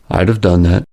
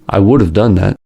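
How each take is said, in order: First: Would is contracted and the vowels are dropped. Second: Would is said in full with a flapped D. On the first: "even more shortened through contraction where the vowels of function words are also dropped" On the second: "The D in would becomes a flap T"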